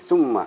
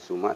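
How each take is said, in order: First: The middle consonant is doubled and held. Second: The middle consonant is short, not doubled. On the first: The speaker calls it right. "tapi summa ya... ditahan" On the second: The speaker calls it wrong. "bukan summa"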